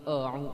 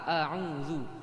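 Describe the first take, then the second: First: The first vowel sounds thick, like o. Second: The first vowel sounds thin, a clear a. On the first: The speaker calls it wrong. "Yang tadinya a, dia jadi o karena ada ain setelahnya" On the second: The speaker calls it right. "Tetap pertahankan a"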